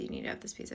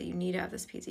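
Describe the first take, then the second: First: Breathy whispered repeat, much softer; eerie hushed insistence; creepy whisper. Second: Said in the usual way. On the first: Retold or imitated. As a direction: whisper it like a creepy stranger at the door. Creepy guy insisting on pizza.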